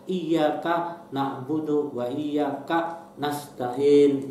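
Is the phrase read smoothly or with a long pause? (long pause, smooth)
long pause. It is read with a relatively long pause. The speaker calls it wrong.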